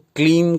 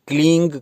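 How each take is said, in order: First: The word ends with a clear n sound. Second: The word ends with a g sound. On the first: "कई लोग इस बिंदी को क्लीन करके" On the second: "कई लोग क्लींग करके"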